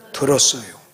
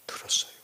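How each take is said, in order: First: Said in the usual way. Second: Very soft repeat; hushed echo. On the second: Real, not acted. Preacher repeating his answer to sink in, hushed echo. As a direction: drop it almost to nothing.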